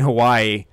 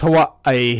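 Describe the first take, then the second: First: It is said with a plain English pronunciation. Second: It is said with an exaggerated native-style pronunciation. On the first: The speaker calls it right. "instead of saying Hawaii" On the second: The speaker calls it wrong. "give it the extra ethnic pronunciation"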